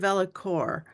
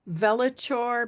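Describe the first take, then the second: First: The middle consonant is not a ch sound. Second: The middle consonant is a ch sound. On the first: "or is it Velicor?" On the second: "I just see C H and I say ch"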